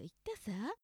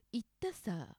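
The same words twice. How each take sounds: First: 「言ったさ」 with the final さ light, bright and lifted; bright Okinawan sa. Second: 「言ったさ」 with the final さ dropped low and tacked on; low Hokkaido sa. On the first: To viewers, demonstrating the Okinawan particle さ: bright, light ending. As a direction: say 「言ったさ」 cheerfully, let さ float up. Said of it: "沖縄のように明るい感じ". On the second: To viewers, demonstrating the Hokkaido particle さ: low, dropped ending. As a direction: say 「言ったさ」 and let さ sink low at the end. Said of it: "文の最後に低くつきます". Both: Shown as a demonstration.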